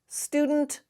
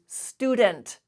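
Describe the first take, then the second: First: The D runs straight into N without a vowel. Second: A short vowel is heard between D and N. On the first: The speaker calls it right. "the D and the N are, are pronounced together. There's no vowel in between" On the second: The speaker calls it wrong. "we do not say student"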